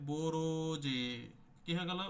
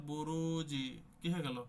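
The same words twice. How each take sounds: No difference in how they are said.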